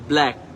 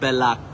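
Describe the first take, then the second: First: The b and l are said together. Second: A vowel is inserted between b and l. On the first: The speaker calls it right. "Correct হচ্ছে ব্ল্যাক" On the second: The speaker calls it wrong. "Not ব্যালাক"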